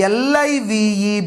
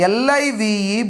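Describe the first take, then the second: The two takes are said the same way.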